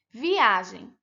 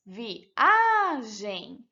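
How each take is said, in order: First: Said in the usual way. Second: "viagem" separated as vi-a-gem, long stressed "a"; syllable by syllable. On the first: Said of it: "Por exemplo". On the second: Shown as a demonstration. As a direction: stretch the middle "a" of "viagem". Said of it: "Separando as sílabas".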